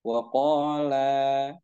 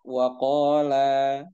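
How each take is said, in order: Both takes have the same delivery.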